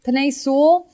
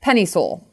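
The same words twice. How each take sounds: First: "Penei" stressed on the wrong syllable, pitched high and rising. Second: "Penei" stressed on the first syllable, falling; corrected stress. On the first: Podcast analyst naming his draft pick, misplaced stress on "Penei". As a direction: say "Penei Sewell" high, leaning on the second syllable of Penei. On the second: Podcast analyst correcting his slip, first-syllable stress on "Penei". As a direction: say "Penei Sewell" with the weight on PEN, at usual pitch. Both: Real, not acted. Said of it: "emphasis on the wrong syllable".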